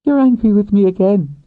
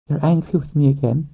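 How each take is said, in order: First: Louder, much higher woman's voice; accusing woman. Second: Much higher woman's voice, questioning. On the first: Woman rider catching her lover's anger, accusing. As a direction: exclaim it as an accusation. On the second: Woman rider asking her lover if he's angry, questioning. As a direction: ask it warily in a high register. She questions his anger. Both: Acted.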